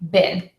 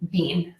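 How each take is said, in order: First: The vowel is a short I sound. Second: The vowel is a long E sound. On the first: This is the American English pronunciation. "We actually pronounce the word bin, B E E N, with a short I" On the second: This is the pronunciation in most other dialects. "most other English dialects will say bean for B E E N"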